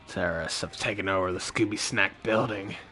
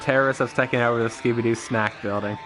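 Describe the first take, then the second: First: It is said in a put-on character voice. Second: It is said in his normal voice.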